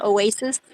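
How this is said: The word is pronounced with English sounds. "in English"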